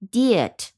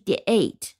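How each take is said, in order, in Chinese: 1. 这个元音很弱，是弱化的，不重读。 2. 这个元音是完整的字母名称读音 'ay'。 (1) "所以它的读音是diet" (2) "而不是diet"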